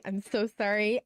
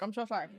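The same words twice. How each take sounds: First: Talking through a mouthful; mouth full. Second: Words round a bite of food; chewing between words; mouth full. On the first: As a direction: apologize while chewing. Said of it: "I'm eating". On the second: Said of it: "Let me eat super quick". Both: Real, not acted.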